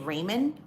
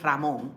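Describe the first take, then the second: First: The name is said with an English pronunciation. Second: The name is said with a Spanish pronunciation. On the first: "I don't say Raymond" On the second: "I'm Dominican, by the way. ... I say Ramon"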